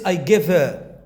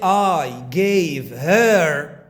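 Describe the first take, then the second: First: The word 'her' is weak and linked. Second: The word 'her' is full and stressed. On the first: The speaker calls it right. "You have to say I give her" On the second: The speaker calls it wrong. "don't say I gave her"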